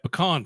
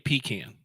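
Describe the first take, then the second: First: It uses the Texan pronunciation. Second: It uses the Deep South pronunciation.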